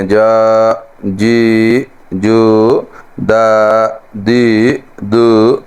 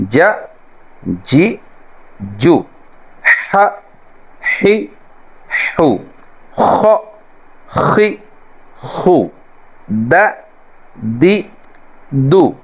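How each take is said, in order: First: Punjabi-style reading. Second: Arabic accent: جا جی جو خ خی خو with a pitched throaty lift; Arabic-style reading. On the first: Retold or imitated. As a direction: read it like Punjabis do, the wrong way. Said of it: "جیسے ہمارے پنجابی جو ہیں". (پنجابی لہجے میں جا جی جو) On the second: Shown as a demonstration. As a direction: read the letters the Arabic way. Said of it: "عربی لہجے میں عربی طرز پر". (عربی لہجے میں جا جی جو)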